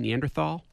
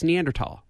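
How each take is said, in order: First: The last syllable starts with a 'th' sound. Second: The last syllable starts with a 't' sound. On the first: The speaker calls it wrong. "everybody wants to say Neanderthal" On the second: The speaker calls it right. "but it's Neanderthal"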